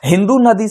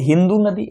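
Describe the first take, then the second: First: The final vowel of Hindu is short. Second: The final vowel of Hindu is long. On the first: This is how the Persians said it. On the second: This is how the locals near the river said it.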